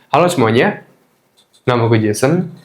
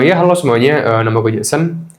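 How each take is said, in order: First: The gaps are left as silent pauses. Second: The gaps are filled with filler sounds like uh. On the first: The speaker calls it right. "E-nya lo ganti jadi kekosongan aja, keheningan aja" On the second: The speaker calls it wrong. "yang awal gue sering kayak gini"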